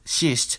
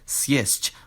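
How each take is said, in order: First: It begins with a single softened consonant. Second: It begins with a two-consonant cluster. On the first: The speaker calls it wrong. "this word isn't pronounced" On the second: The speaker calls it right. "with a two-consonant cluster"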